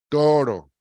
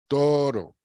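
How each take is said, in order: The two takes are said the same way.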